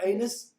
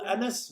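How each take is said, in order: First: The name is said to sound like 'anus'. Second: The name is said as 'Annis', rhyming with 'tennis'. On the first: The speaker calls it wrong. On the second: The speaker calls it right.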